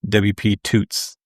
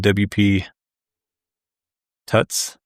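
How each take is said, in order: First: The vowel in Tuts is long, as in boots. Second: The vowel in Tuts is short, as in cuts. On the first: "It's short for tutorial, so I want to say W P Toots" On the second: "Is that how you pronounce it?"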